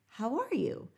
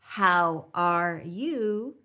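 First: A W glide links the words smoothly. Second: The words are said separately without a glide.

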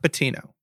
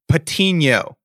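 First: The n is said as a plain n. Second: The n is said as a 'ny' sound. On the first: The speaker calls it wrong. "not Patino" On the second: The speaker calls it right. "throw the NA on there"

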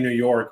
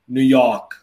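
First: It is said in a plain, general accent. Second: It is said in a New York accent. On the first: "you and I would look at New York and we say New York" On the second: "a New Yorker would look at New York and be like New York"

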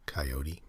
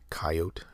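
First: It is said the way non-Canadians say it. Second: It is said the way Canadians say it. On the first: "and not coyote?" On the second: "Is it just Canadians that say coyote"

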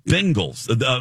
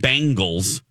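First: The first syllable sounds like 'ben'. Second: The first syllable sounds like 'bang'. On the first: The speaker calls it right. "like you say, Ben" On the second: The speaker calls it wrong. "the Bang, not Bengals"

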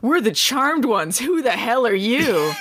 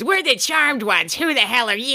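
First: It is said in the speaker's ordinary voice. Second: It is said in a put-on dramatic character voice.

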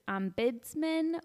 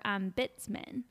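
First: The middle consonant sounds like a D. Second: The middle consonant sounds like a T. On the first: "she's going the D root" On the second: "or the T root"

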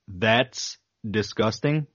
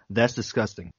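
First: The phrase is said slowly and carefully. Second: The phrase is said quickly and comes out slurred. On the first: The speaker calls it right. "I can say it if I go" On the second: The speaker calls it wrong. "if I try to say it in a normal pace, like a normal human, it comes out"

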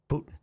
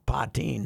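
First: It is said like "POO-tin". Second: It is said like "po-TEEN". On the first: This sounds like a famous politician's name. "not a Putin" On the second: This is how the name's owner says it. "She pronounces it Poteen"

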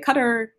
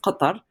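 First: The name is said with English sounds. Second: The name is said with Arabic sounds. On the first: "people say Qatar" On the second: "in Arabic"

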